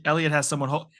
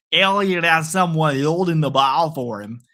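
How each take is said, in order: First: Said in the usual way. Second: Drawn-out, hammed-up Canadian accent; slow mock-Canadian play-by-play. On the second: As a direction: stretch the vowels like a put-on Canadian announcer. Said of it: "I sound like a Canadian here".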